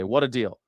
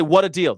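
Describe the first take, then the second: First: Said in the usual way. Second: "What a deal." said higher and louder, punchy; upbeat catchphrase. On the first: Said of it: "That's what I always say". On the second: Shown as a demonstration. Telling listeners his checkout catchphrase, upbeat and punchy. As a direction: toss off "What a deal." brightly and loud. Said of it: "I always say".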